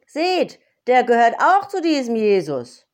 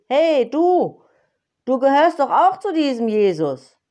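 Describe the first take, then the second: First: High, loud accusing call; second maid calling out. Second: Cheeky maid, higher and louder, accusing; bold maid calling out. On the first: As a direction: point at him and shout it to everyone. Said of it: "zeigte mit dem Finger auf ihn und rief". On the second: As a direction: point him out boldly across the yard. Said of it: "musterte ihn ... und rief". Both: Acted.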